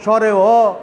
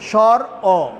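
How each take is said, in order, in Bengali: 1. প্রথম শব্দের পরে একটি অতিরিক্ত 'e' স্বরধ্বনি আছে। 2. প্রথম শব্দের পরে কোনো অতিরিক্ত স্বরধ্বনি নেই। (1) "এগুলি কিন্তু আসলে এইগুলিকে উচ্চারণটাকে বিকৃত রূপ মাত্র" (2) "শুদ্ধ এবং সঠিকভাবে যখন উচ্চারণ করব"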